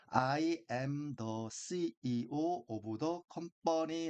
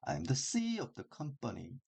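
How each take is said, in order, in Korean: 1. 모든 단어를 똑같은 세기로 따로 읽어요. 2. 작은 단어는 빠르고 약하게, CEO와 company는 강하게 읽어요. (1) "이것을 그런 형태로 읽는 것이 아니라" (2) "그의 규칙에 따라 읽게 되면"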